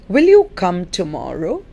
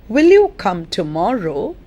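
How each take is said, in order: Both takes have the same delivery.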